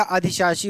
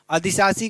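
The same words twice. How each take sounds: First: अधिशासी with a clear sh, "adhishaasi"; अधिशासी pronounced "adhi-shaa-si"; corrected form. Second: अधिशासी with plain s for sh, "adisaasi"; अधिशासी without the sh sound; misspelt form. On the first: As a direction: say अधिशासी with "sh" in the middle. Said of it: "हो जाएगा". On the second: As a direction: say अधिशासी as "adi-saa-si". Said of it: "का अधिशासी हो जाएगा". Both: Shown as a demonstration.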